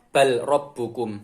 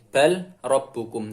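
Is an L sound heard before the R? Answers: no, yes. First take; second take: yes; yes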